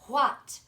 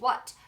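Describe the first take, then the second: First: The word starts with a breathy h-like sound. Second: The word starts with a plain w sound. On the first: The speaker calls it right. "you would say what" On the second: The speaker calls it wrong. "you wouldn't say what"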